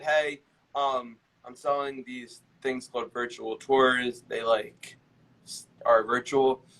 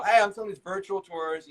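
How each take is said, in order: First: Slow, halting pitch full of hesitation; dragging, uncertain cold call; unsure sales pitch. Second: Higher, confident sales pitch; assured opener with lifted pitch; certain, expert inflection. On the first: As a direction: fumble the pitch as if unconvinced. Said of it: "imagine if you called and said". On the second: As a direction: pitch it like you know you're the expert. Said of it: "you're able to inflect it in your voice". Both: Shown as a demonstration.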